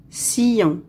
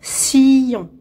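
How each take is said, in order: First: Said in the usual way. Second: "Sillon" stretched as siii, llon; syllable by syllable. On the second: Shown as a demonstration. Teacher locating a sound for pupils, "Sillon" drawn out by syllables. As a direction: hold the first syllable of "Sillon". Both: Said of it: "Dans la deuxième syllabe".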